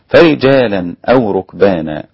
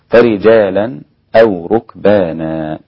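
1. تتصل الكلمات دون أي سكتة. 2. تأتي سكتة خفيفة قبل الهمزة. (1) "وعدمه" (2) "فله السكت"

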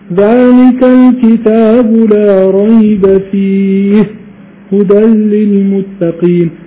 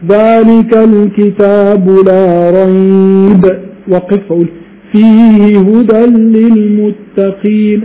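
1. يوجد وقف بعد كلمة فيه. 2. يوجد وقف بعد كلمة ريب. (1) "الأفضل لا ريب فيه" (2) "وقف"

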